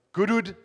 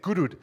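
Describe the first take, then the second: First: Said in the usual way. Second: Goodwood said as "kudud" with a local South African accent. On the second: Shown as a demonstration. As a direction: clip Goodwood to "kudud" the Cape Town way. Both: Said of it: "You gotta say it with a, a bit of an accent".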